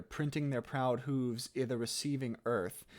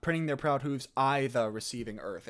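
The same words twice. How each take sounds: First: "i'" said as a short "ih", run into "the"; squished elision. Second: "i'" wrongly said like the pronoun "I", rhyming with "eye"; mistaken long I. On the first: Coach reading the verse correctly, "i'" as short "ih". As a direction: squash "i' the" into a quick "ih-the". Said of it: "squish it down to make it". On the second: Coach showing students the misreading, "i'" as "eye". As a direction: say "i'" as a full long "eye" before "the". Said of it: "Now, it's not I. It's not". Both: Shown as a demonstration.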